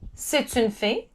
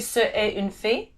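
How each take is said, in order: First: Ce and est merge into one syllable. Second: Ce and est are said as two separate syllables. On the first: The speaker calls it right. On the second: The speaker calls it wrong.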